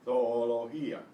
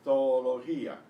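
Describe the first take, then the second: Both takes have the same delivery.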